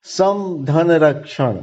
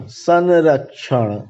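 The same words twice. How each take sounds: First: "सम धन रक्षण" said as separate parts, सम with a clear म sound; teacher breaks "सम धन रक्षण" into its parts; split into parts. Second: "संरक्षण" as one word, म turned into a nasal; teacher says the joined form "संरक्षण" slowly. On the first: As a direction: spell out "सम धन रक्षण" piece by piece, ending on a fall. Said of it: "उदाहरण देखिए". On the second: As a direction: blend "संरक्षण" smoothly and slowly, ending on a fall. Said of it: "म है और धन र है". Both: Shown as a demonstration.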